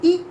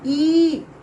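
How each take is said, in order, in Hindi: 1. स्वर को बस थोड़ी देर के लिए बोला जाता है। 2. स्वर को ज़्यादा देर तक बोला जाता है। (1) "कम समय तक आवाज़ निकले" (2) "थोड़ा देर तक निकले"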